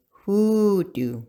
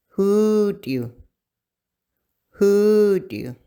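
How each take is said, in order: First: Said in the usual way. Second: Hoodoo, higher and louder, long oo vowels, stress on HOO; model word Hoodoo. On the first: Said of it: "the word for that is hoodoo". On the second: Shown as a demonstration. Teacher modeling Hoodoo for learners, higher, louder and stressed first. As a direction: Hoodoo called out clearly, first syllable stressed. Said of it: "hold it longer".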